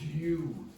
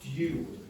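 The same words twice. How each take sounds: No difference in how they are said.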